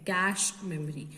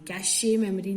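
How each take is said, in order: First: Cache is said as one syllable, 'cash'. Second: Cache is said with two syllables, ending 'ay'. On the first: The speaker calls it right. "It is pronounced as कैश memory" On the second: The speaker calls it wrong. "कैशे memory नहीं है"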